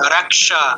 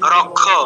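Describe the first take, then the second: First: It is said with a clear k followed by sh. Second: It is said with a kh-like sound, no clear sh. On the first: This is how it is said in Sanskrit. The speaker calls it right. "ক দিয়ে স এর সাথে যুক্ত" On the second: This is how it is said in Bengali. The speaker calls it wrong. "সংস্কৃতে রক্ষ নয়"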